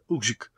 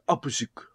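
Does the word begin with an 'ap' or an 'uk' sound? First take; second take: uk; ap. First: The word begins with an 'uk' sound. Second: The word begins with an 'ap' sound. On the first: The speaker calls it right. "욱시크 이렇게 발음하면 됩니다" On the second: The speaker calls it wrong. "이거는 잘못됐다"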